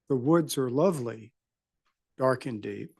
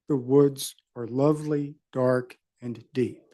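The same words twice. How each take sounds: First: No pause comes between dark and deep. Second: A pause comes between dark and deep. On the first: "the phrase is pronounced the first way is there is no comma between dark and deep" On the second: "If the intent was otherwise, there would be a comma there"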